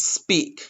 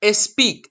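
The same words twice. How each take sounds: First: "speak" beginning directly on the S; pure initial S. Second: "speak" said as "es-peak"; vowel wrongly added before S. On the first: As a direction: say "sss-peak" with no E in front. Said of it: "You need to pronounce speak". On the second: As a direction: start "speak" with a stray E. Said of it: "No, that's not correct". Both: Shown as a demonstration.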